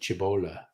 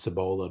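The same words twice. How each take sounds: First: It is pronounced the way an Italian word would be. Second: It is pronounced the usual English way. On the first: "it looks like an Italian word. So you'd pronounce it" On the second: "I believe it's pronounced Cibola Burn by most people"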